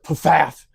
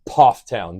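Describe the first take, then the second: First: The first syllable sounds like 'faff'. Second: The first syllable sounds like 'poff'. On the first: The speaker calls it wrong. "most people pronounce it Pfaff" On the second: The speaker calls it right. "but it's Pofftown"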